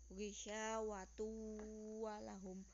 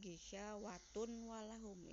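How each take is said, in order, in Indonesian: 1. Bunyi n melebur ke huruf w setelahnya. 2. Bunyi n jelas dibaca sebelum w. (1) "bacanya dileburkan ke huruf setelahnya" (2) "Jangan bacanya ... itu salah"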